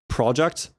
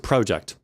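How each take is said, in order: First: It is said with a reduced schwa vowel. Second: It is said without a reduced schwa vowel. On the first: The speaker calls it wrong. "when I try using the American schwa" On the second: The speaker calls it right. "We're going to stick with that"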